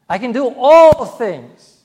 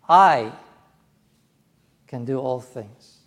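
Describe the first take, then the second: First: The stress falls on the word all. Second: The stress falls on the word I. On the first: Everything is possible, not just certain things. "Not just certain things. All things" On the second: The speaker personally, not only famous people, is able. "Me. Not just Billy Graham or Dennis Paderny, but me"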